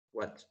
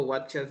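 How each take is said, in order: First: "watch" as one soft syllable, ending clipped to "watcht"; correct pronunciation. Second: "watcher" with an extra syllable on the ending; wrong pronunciation. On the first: Teacher showing what to say instead, "watch" in one quiet syllable. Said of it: "sino que". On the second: Teacher showing what not to say, "watcher" in two syllables. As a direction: add a second syllable after "watch", as "watcher". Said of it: "No digo watcher". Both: Shown as a demonstration.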